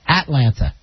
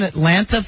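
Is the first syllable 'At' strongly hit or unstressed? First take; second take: strongly hit; unstressed. First: The first syllable 'At' is strongly hit. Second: The first syllable is said lightly.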